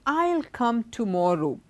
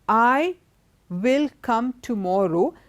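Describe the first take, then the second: First: I and will merge into one short syllable. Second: I and will are said as two full words. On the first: "When you're contracting I plus will" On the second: "So in a sentence"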